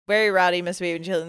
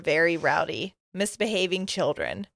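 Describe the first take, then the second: First: There is a short pause after "rowdy". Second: There is a long pause after "rowdy". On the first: The speaker calls it right. "There we go" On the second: The speaker calls it wrong. "I put way too long of a pause there"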